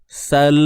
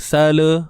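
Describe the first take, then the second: First: The word ends cleanly on a held L. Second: A short vowel is added after the final L. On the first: The speaker calls it right. "jangan biarkan hujung lidah kita jatuh terlalu awal" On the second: The speaker calls it wrong. "tak mau bunyi sala"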